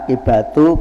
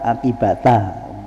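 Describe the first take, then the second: First: The word ends with an 'u' vowel. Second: The word ends with an 'a' vowel. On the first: The word is the subject of kana. "boleh dibaca akibatu" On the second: The word is the predicate of kana. "boleh dibaca akibata"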